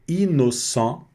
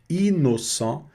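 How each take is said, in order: No difference in how they are said.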